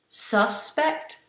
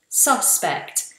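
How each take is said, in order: First: The first vowel is a weak schwa sound. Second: The first vowel is a full 'ah' sound. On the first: It is the action of suspecting someone. "when I make it a verb, I make the first vowel more of a schwa" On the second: It names a person suspected of a crime. "When it's a noun, a suspect is more of a ah"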